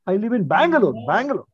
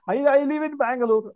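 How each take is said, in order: First: Bangalore is given extra stress. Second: No word is given extra stress. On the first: The speaker is repeating the place for someone who did not catch it. "So we put stress at that time" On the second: A plain statement with no special emphasis. "Otherwise, we don't stress at all"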